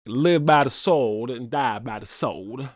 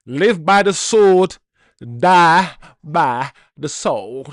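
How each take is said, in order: First: Put-on slower, lightly done Southern accent; a hint of a Southern drawl, easy and unhurried; Daniel Craig Southern accent. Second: Put-on slow, loud, drawn-out Southern accent line; Daniel Craig Southern accent. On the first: Fan repeating the Knives Out line, lightly voiced Southern accent. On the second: Fan quoting Knives Out, slow loud Southern accent. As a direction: boom it slowly like a Southern detective. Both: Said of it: "I talk in a Southern accent".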